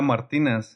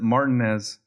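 First: The name is pronounced the Spanish way. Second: The name is pronounced the English way. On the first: The name is given its original form. "Pero su apellida era Martinez" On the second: The speaker distances himself from being Mexican. "he would pronounce it Martinez. ... So he gave it that kind of I'm not Mexican"

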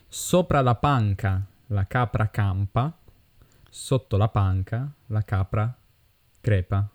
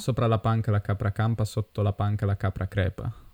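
First: It is said at a normal pace. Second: It is said at a fast pace.

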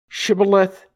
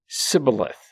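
First: The word begins with an SH sound. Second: The word begins with a plain S sound. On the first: This is how the Gileadites said it. The speaker calls it right. "Then say Shibboleth" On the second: This is how the Ephraimites said it. The speaker calls it wrong. "he said Sibboleth, for he could not pronounce it right"

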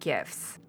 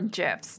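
First: It begins with a hard g sound. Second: It begins with a soft j sound. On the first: "whether it's a hard G" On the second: "or a soft G"

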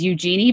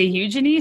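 First: The name is said in an American accent. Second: The name is said in a British accent.

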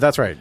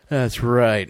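First: It is said with more energy and enthusiasm. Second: It is said flatly, with little energy. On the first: The speaker calls it right. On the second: The speaker calls it wrong.

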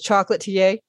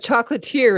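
First: The word is pronounced the French way. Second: The word is pronounced the English way. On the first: The speaker calls it right. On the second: The speaker calls it wrong.

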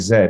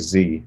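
First: The letter is said the British way, zed. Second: The letter is said the American way, zee.

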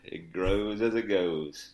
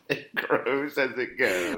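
First: It is said in a put-on celebrity drawl. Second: It is read in the speaker's normal voice.

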